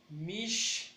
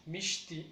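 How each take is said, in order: First: "Mishti" split as MISH, ti; higher, held MISH, then a gap; syllable by syllable. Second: Said in the usual way. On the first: Shown as a demonstration. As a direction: separate the two beats of "Mishti". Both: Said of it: "Lleva mayor fuerza en el".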